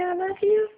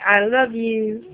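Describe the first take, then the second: First: Put-on high sing-song baby talk; high coaxing. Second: Slow coaxing. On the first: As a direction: coax the baby sweetly. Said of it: "You're not gonna say". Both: Shown as a demonstration.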